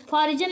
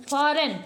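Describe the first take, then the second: First: फॉरिजन with G said as J; read as spelt. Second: फॉरेन with no J sound; silent G. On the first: Teacher reading the spelling to learners, फॉरिजन with sounded G. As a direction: voice a J inside फॉरिजन. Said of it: "फॉरिजन लिखा है". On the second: Teacher correcting the reading for learners, फॉरेन with silent G. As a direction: drop the G, leaving फॉरेन. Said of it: "लेकिन हम इसको क्या पढ़ते हैं". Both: Shown as a demonstration.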